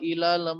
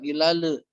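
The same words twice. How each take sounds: First: The final L flows smoothly into the next word. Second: The final L is given an echoing bounce. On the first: The speaker calls it right. "ilal mala langsung ya" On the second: The speaker calls it wrong. "bukan ilal"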